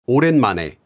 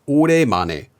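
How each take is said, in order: First: An n sound closes the second syllable. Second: No n sound closes the second syllable.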